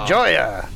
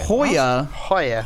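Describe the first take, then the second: First: Joya begins with an English J sound. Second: Joya begins with an H sound. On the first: The speaker calls it wrong. "No, that's not how you say it" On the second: The speaker calls it right. "J sounds like an H"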